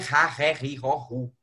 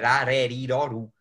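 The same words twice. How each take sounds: First: The R is said as a strong double R. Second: The R is said as a single light R. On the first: The speaker calls it wrong. "não é rareriroru" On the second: The speaker calls it right. "pensar que tem um R só"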